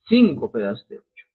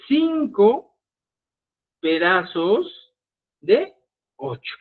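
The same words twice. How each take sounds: First: Said in the usual way. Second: Each word set apart, slowly dictated; slow and spelled out. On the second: Shown as a demonstration. (despacio, palabra por palabra)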